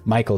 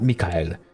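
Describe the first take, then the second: First: It is said as English Michael, two syllables. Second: It is said as Mikhail, stress at the end. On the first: This is the pronunciation the name's owner chose. The speaker calls it right. "pronounce me, you know, Michael" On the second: This is not the pronunciation the name's owner chose. The speaker calls it wrong. "not Mikhail"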